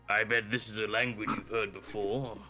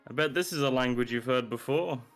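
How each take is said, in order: First: It is said in a put-on character voice. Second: It is said in his normal voice.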